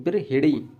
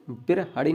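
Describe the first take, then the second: First: I vowel after the h in बिरहिड़ी; teacher's corrected vowel; correct pronunciation. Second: Teacher showing the mistaken vowel; wrong pronunciation. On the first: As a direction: say बिरहिड़ी as bir-hi-ree. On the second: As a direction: open a after the h in बिरहड़ी. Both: Shown as a demonstration. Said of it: "बिरहड़ी नहीं".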